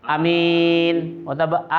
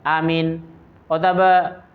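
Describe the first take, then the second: Both takes have the same delivery.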